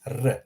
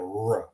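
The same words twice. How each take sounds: First: The first "r" trilled on the tongue tip; rolled R. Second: The second "r" untrilled and W-like; English rhotic R. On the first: Teacher giving the Croatian sound, trilled "r". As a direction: roll "r" briefly, Croatian style. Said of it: "it's r instead of r". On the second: Teacher giving the sound to avoid, untrilled English "r". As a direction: say "r" the English way, without rolling. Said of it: "instead of r". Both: Shown as a demonstration.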